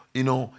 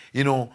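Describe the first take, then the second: No difference in how they are said.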